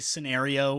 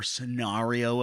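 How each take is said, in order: First: It is said in a plain, ordinary way. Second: It is said in a posh, snobbish way. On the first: "some people say scenario" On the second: "if they're really high up there"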